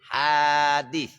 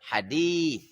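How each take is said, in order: First: The second vowel is kept short. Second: The second vowel is drawn out long. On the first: Something new, not eternal. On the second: The sayings and deeds of the Prophet.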